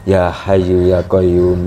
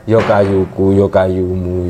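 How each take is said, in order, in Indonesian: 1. Diucapkan dengan bunyi Arab, termasuk h yang berdesah. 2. Diucapkan dengan vokal Jawa dan bunyi k yang biasa. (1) "kalau wiridan itu ya hayyu ya qayyum" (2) "Kalau orang Jawa jadinya"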